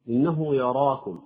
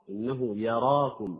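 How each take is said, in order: First: The ya sound is heavy and darkened. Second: The ya sound is light and open. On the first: The speaker calls it wrong. "خطأ" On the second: The speaker calls it right. "يعني يفتح الياء من أجل التمييز"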